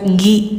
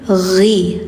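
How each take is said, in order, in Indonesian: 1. Awalnya bunyi g keras yang biasa. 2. Awalnya bunyi gh dari tenggorokan yang mengalir. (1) "jangan gi" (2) "tapi ghi"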